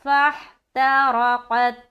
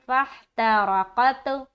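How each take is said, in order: First: The final t stops cleanly without any bounce. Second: The final t is released with an echoing bounce. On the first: The speaker calls it right. "यहाँ पर जब हम स्टॉप करेंगे" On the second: The speaker calls it wrong. "कत नहीं बोलना, कत बोलेंगे गलत है"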